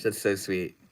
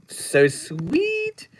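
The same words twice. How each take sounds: First: Said in the usual way. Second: Much higher, squeaky cooing. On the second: Pretend. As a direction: coo it up high like cooing at a baby. Repeats chat praise twice.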